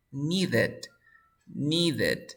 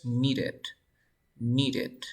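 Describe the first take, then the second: First: "needed" with a firm D before "ed"; full D sound. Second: "needed" with a light flap for the middle D; tapped D. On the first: Teacher applying the ED rule, "needed" with full D. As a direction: give "needed" two careful syllables. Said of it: "antes de la D hay una D". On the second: Teacher showing D between vowels, "needed" with a tap. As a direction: tap quickly through the D of "needed". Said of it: "esta D entre dos sonidos de vocales". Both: Shown as a demonstration.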